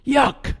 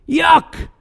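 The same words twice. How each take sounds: First: A quiet, higher "Yuck!" of distaste; a mild, under-the-breath yuck; soft disgusted yuck. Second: A big theatrical yuck to the room; shouted disgusted yuck. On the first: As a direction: wrinkle your nose and say "Yuck!" softly. Disgust at the quote. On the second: Disgust repeated louder. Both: Acted.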